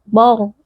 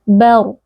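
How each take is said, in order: First: Both the b and the r sound heavy and dark. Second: The b sounds light, only the r sounds heavy. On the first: The speaker calls it wrong. "jangan dibaca bor ... dua-duanya dibaca tebal" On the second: The speaker calls it right. "pastikan huruf ba-nya tipis, ba kemudian masuk ke ra sukun yang tebal"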